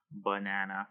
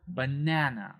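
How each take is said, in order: First: "banana" on one low, level note, no syllable stressed; monotone, softer "banana" with equal syllables; flat, robotic. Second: "banana" with the middle "na" longer and raised; natural "banana", second syllable emphasized; stressed second syllable. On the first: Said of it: "flat and even and level". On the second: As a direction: punch the middle of "banana" a little. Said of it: "said a little bit louder". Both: Shown as a demonstration.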